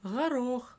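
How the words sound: The first consonant is a soft fricative, regional.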